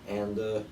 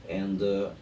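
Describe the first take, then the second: The two takes are said the same way.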